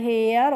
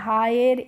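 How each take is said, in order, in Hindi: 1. स्वर 'air' जैसा लगता है। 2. स्वर 'eye' और 'er' जैसा लगता है। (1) "हमें पढ़ना है ... हेयर" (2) "हायर इस तरीके से ... नहीं पढ़ना है"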